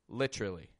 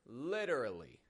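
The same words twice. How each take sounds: First: The middle is reduced, sounding like 'litra'. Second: Every syllable is pronounced clearly and fully. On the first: The word is not being emphasized. "And when you're not emphasizing it, give it this literally" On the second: The word is being emphasized. "When you're emphasizing the word, get it nice and clear"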